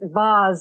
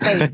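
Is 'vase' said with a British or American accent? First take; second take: British; American. First: It is said the British way. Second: It is said the American way.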